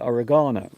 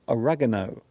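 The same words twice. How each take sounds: First: It is said with a British pronunciation. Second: It is said with an American pronunciation. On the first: "In British English, we say oregano" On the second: "in American English, they will say oregano"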